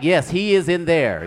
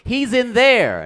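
First: "is" stressed, slow and louder; emphatic confirming. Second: High, loud, drawn-out wail; frantic cry. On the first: Man telling the cops as well, "is" stressed emphatically. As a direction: lean on "is" and fall away. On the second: Woman telling the cops where he is, frantic cry. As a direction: cry it out high, stretching the words. Woman tells police hysterically. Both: Acted.

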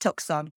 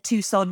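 First: Tucson said as TUCK-son; phonetic mispronunciation. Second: Said in the usual way. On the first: Shown as a demonstration. Host confessing an old mistake, Tucson mispronounced as TUCK-son. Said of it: "thought that Tucson was pronounced Tucson". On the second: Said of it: "I also thought that Tucson".

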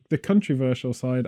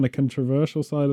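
First: "controversial" said as "country-versial"; country-versial slip. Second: Said in the usual way. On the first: Real, not acted. Host stumbling over the phrase, "controversial" coming out as "country-versial". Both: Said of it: "if you're from New Zealand, that sounds totally normal".

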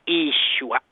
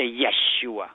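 First: "Yeshua" opening on a long EE, EE-shoo-ah; northern Galilean Aramaic pronunciation. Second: "Yeshua" opening with YEH, YEH-shoo-ah; Hebrew-style "Yeshua", starting yeh; Hebrew pronunciation. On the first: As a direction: say "Yeshua" with no Y sound, starting ee. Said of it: "the northern Galilean Aramaic expression". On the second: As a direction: say "Yeshua" with a Y and short e first. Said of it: "but in Hebrew, they say". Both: Shown as a demonstration.

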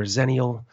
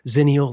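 First: "zennial" with an e, like ZEN-ee-ul; first syllable of "zennial" rhymes with "ten"; alternative pronunciation. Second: "zennial" with a short i, like ZIN-ee-ul; first syllable of "zennial" rhymes with "tin"; alternative pronunciation. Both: Shown as a demonstration. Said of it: "whether it's zennial or zennial".

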